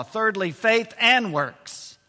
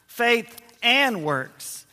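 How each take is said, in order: First: Slow announce. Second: Very slow. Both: Shown as a demonstration.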